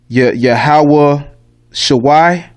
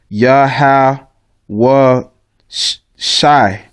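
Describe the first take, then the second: First: The last word has two syllables, sha-wai. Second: The last word has one syllable, shai. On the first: The speaker calls it wrong. "that's the wrong pronunciation" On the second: The speaker calls it right. "actually it's just Yahweh Shai"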